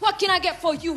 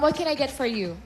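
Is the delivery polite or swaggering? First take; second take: swaggering; polite. First: It is said in a cocky, hip-hop style accent. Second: It is said in a polite, standard American accent. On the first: "Medyo naangas"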